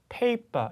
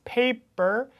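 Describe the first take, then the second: First: Paper ending in open "pa"; British, no R. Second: Paper slow and high, ending with an R; American R. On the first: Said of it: "R 사운드만". (paper 끝 R을 빼는 영국식 발음) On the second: Contrasts American and British endings. (paper 끝 R을 살린 미국식 발음) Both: Shown as a demonstration.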